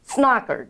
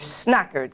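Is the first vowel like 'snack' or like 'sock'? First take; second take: sock; snack. First: The first vowel sounds like the vowel in 'sock'. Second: The first vowel sounds like the vowel in 'snack'. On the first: The speaker calls it right. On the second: The speaker calls it wrong.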